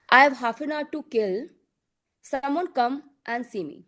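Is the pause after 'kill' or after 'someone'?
after kill. The pause comes after 'kill'.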